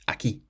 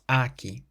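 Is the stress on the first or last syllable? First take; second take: last; first. First: The stress is on the last syllable. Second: The stress is on the first syllable. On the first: The speaker calls it right. "we stress the last syllable" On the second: The speaker calls it wrong. "So it's not aquí"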